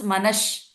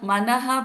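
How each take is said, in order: First: The word ends with an sh sound. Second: The word ends with a breathy h sound.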